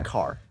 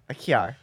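First: Car is said plainly, in the speaker's own accent. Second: Car is said like 'kyar', a Jersey-style accent.

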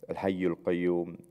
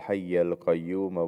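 First: The names end with a 'u' vowel. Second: The names end with an 'a' vowel. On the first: The names stand as the subject of the sentence. "they end with a dhamma" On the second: The names describe the one addressed in the plea for forgiveness. "it also ends with a fatha"

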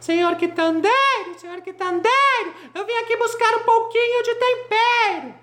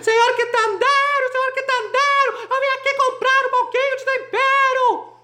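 First: It is shouted somewhat louder than before. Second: It is shouted at the loudest level.

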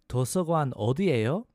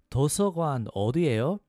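No difference in how they are said.

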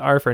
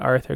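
First: The T sound in the middle is softened. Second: The T sound in the middle is clear. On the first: It imitates how a character says it. "That's why he says Arthur" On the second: It is the ordinary way of saying it. "not Arthur"

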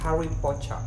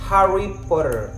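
First: British accent, with a softer T. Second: American accent, with a firmly pronounced T. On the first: "kalau misalkan pakai British aksen" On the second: "kalau di aksen Amerika agak tegas T-nya"

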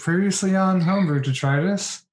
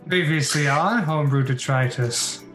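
First: It is said in a weak, plain voice. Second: It is said in a fantasy narrator voice.

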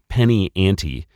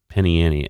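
First: The T in the second word is pronounced. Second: The T in the second word is dropped.

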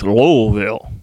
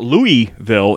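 First: The middle L sound is clearly pronounced. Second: The middle L sound is dropped. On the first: The speaker calls it right. "you got to throw that whole L in there" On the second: The speaker calls it wrong. "she was very adamant that it's not Louisville"

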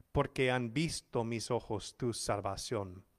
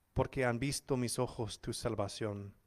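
Both takes have the same delivery.

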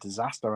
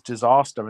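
First: The word is said in a plain accent. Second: The word is said in a posh accent. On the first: This is the usual way to say it. "instead of disaster" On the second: This is how the speaker's father says it. "he says disaster"

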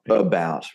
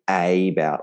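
First: The first vowel is reduced to a weak 'uh'. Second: The first vowel is a full open 'a'. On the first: The speaker calls it right. "We go about" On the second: The speaker calls it wrong. "we don't say A about"

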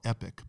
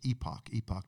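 First: The second syllable sounds like 'ick'. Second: The second syllable sounds like 'ock'. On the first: This is how the speaker's own side would say it. "We would call it Epic" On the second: This is how the publication itself says it. "but they pronounce it Epoch"

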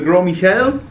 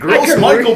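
First: It is said like French 'gro Mee-shell'. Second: It is said like English 'gross Michael'. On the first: The speaker calls it right. "you mean the gros Michel?" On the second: The speaker calls it wrong. "I had no idea how to pronounce them"

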